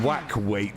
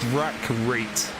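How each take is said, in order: First: The R sounds come out like W sounds. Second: The R sounds are pronounced clearly. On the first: The speaker calls it wrong. "sometimes I lose my R's and I end up saying" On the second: The speaker calls it right. "I have to really pronounce the uh, the R's"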